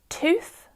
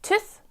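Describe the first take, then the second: First: The vowel is a plain oo sound. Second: The vowel is a different, non-oo sound. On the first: This is how the speaker says it. "I have the oo sound there" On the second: This is how others say it. "for others it may be more of a tooth"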